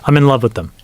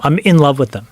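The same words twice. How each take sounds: First: Said in the usual way. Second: IN leaned on, setting it apart from plain love; stress on IN. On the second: Real, not acted. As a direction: correct it by punching the word "in". Corrects "love" to "in love.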